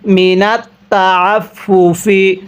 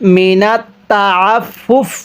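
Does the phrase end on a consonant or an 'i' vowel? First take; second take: vowel; consonant. First: The phrase ends with a short 'i' vowel. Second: The phrase ends on the consonant 'f'. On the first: The reading continues without stopping. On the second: The reader stops at this point.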